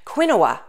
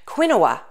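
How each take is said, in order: First: The word is read Spanish-style, as it is spelled. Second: The word is read Spanish-style, as it is spelled.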